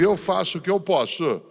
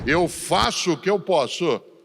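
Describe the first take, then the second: First: It trails off in a resigned, giving-up tone. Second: It ends firmly in a determined, emphatic tone.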